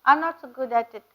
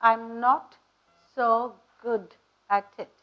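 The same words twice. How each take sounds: First: The final consonants are weak or dropped. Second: The final consonants are pronounced clearly and strongly. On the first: The speaker calls it wrong. "அப்படின்னு சொல்லக்கூடாது" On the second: The speaker calls it right. "You have to stress on the consonants"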